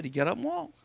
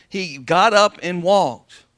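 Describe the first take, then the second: First: Said in the usual way. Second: "He got up and walked" dragged out slowly and louder; slow, loud repeat. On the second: Shown as a demonstration. Pastor repeating the miracle to the congregation, slow and loud. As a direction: drive it home word by word. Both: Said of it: "Come on, amen?".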